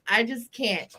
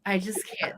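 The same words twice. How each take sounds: First: Said in the usual way. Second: Breathless whisper, overcome. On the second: Real, not acted. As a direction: whisper it, too amused to speak. Overcome with laughter.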